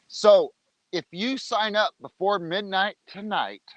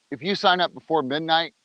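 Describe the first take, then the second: First: Televangelist voice. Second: Said in the usual way. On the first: Real, not acted. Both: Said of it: "I sound like a televangelist".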